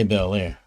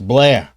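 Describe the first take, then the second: First: The name is said as two syllables. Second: The name is said as one syllable. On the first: The speaker calls it wrong. "Don't say Bel Air" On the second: The speaker calls it right. "it's it's Blair. It ain't Bel Air"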